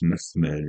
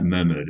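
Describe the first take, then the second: First: The middle h sound is a throaty, rasping h. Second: The middle h sound is a plain English h. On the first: The speaker calls it right. "it's Mehmed" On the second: The speaker calls it wrong. "it's not Mehmed"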